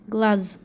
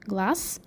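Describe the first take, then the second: First: The word ends with a voiced z sound. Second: The word ends with a voiceless s sound. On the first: This is how the word is written. "and you write with Z" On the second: This is how the word is spoken. "You pronounce with S"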